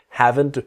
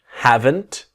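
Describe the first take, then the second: First: The word is said quickly, the T dropping. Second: The word is said slowly and carefully.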